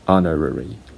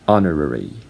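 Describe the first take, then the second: The two takes are said the same way.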